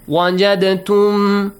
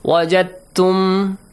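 First: The d is released with a short bounce. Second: The d is merged smoothly into the t. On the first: The speaker calls it wrong. "either you apply the qalqala rule" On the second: The speaker calls it right. "because it becomes easier to pronounce, more fluent, more softly"

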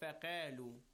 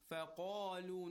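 First: The q sound is light and thin. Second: The q sound is heavy and full. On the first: The speaker calls it wrong. "not faqalu" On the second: The speaker calls it right. "why تفخيم قاف is a letter of تفخيم"

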